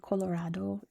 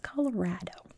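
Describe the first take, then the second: First: The middle vowel is an open 'ah' sound. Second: The middle vowel rhymes with 'rad'. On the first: It follows the Spanish pronunciation. The speaker calls it wrong. "If you come here and say Colorado, you will get stared at" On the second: It follows the local American pronunciation. The speaker calls it right. "It's Colorado. Rad"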